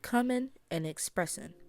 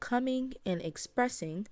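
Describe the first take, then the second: First: The words end with a plain N sound. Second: The words end with an NG sound.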